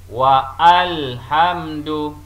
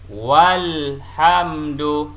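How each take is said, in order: First: A separate a-vowel is sounded after wa. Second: Wa joins straight onto lhamdu with no extra vowel. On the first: The speaker calls it wrong. "Adalah salah sekiranya kita membaca begini" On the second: The speaker calls it right. "Kita akan baca begini"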